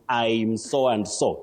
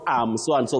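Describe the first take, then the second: First: The first word sounds like 'I'm', with 'eye'. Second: The first word sounds like the word 'am'. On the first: The speaker calls it right. "it's I'm" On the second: The speaker calls it wrong. "Not am so and so"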